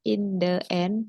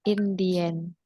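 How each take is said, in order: First: The word 'the' is said with a short 'thuh'. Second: The word 'the' is said with a long 'thee'. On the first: The speaker calls it wrong. "Bukan in the end" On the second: The speaker calls it right. "tapi in the end"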